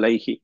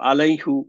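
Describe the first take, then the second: First: The word ends with an 'i' vowel. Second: The word ends with an 'u' vowel. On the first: The speaker calls it right. "So হচ্ছে আলাইহি" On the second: The speaker calls it wrong. "আলাইহু বলার কথা"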